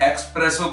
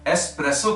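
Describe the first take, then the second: First: The word starts with an 'ex' sound. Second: The word starts with an 'es' sound. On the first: The speaker calls it wrong. "ये एक्सप्रेसो coffee नहीं है" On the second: The speaker calls it right. "एस्प्रेसो coffee है"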